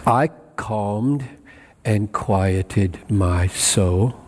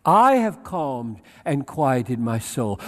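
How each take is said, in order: First: Low, slow and deliberate reading; low-pitched, measured, pausing after "calmed"; slow, settled quote. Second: "I" set out firmly, then falling away; self-assertive quote. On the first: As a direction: set "I calmed" apart, then draw out the rest slowly. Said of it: "what does he mean when he says". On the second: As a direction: lean on the opening I of "I have calmed". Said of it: "Why do you say it like this". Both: Shown as a demonstration.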